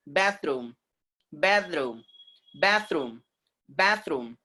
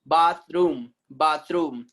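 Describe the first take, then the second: First: Bathroom with a as in cat; American pronunciation. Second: Bathroom with long ah, "BAHTH-room"; British pronunciation. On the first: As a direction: say bathroom as "BATH-room", falling. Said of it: "And American people". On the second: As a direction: open ah in Bathroom, falling. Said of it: "is British sound". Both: Shown as a demonstration.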